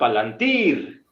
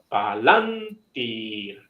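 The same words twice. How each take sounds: First: The stress falls on the final syllable. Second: The stress falls before the final syllable. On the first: The speaker calls it wrong. "No digo palantir" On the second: The speaker calls it right. "Alargo la I, pero el énfasis no va ahí"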